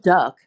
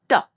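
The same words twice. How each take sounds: First: It starts with a plain, relaxed d sound. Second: It starts with a tense, sticky d sound. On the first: The speaker calls it wrong. "So it's not duck" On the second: The speaker calls it right. "it's like a sticky D"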